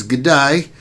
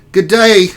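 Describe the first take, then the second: First: Said in the usual way. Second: Put-on "Good day." in a higher, louder Aussie accent, g'day style; Australian accent. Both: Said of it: "That's an Australian [name], mate".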